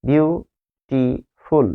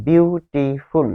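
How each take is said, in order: First: বিউটিফুল drawn out very slowly as বি-উ-টি-ফুল; split into syllables. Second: বিউটিফুল said slowly but whole; slow example word. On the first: Teacher splits বিউটিফুল into syllables for students. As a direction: stretch বিউটিফুল into its three syllables. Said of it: "বিউটিফুল শব্দের মধ্যে তিনটা syllable". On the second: Teacher gives বিউটিফুল as an English example, slowly. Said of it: "ইংরেজিতে বলা হয় syllable". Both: Shown as a demonstration.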